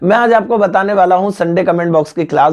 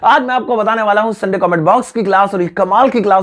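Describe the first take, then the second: First: It is said flatly, with little energy. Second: It is said with lively, expressive energy.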